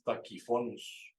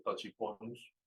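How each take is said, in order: First: "Tachyphonus" with ch as a k; correct Latin pronunciation. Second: "Tachyphonus" with a Spanish ch; naive pronunciation. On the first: Teacher giving the proper bird name, correct pronunciation. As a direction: say "Tachyphonus" slowly as ta-ki-FO-nus. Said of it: "así se pronuncia ese". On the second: Teacher showing how one might read it, naive pronunciation. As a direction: say "Tachyphonus" as ta-chi-FO-nus. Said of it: "pronunciado uno". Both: Shown as a demonstration.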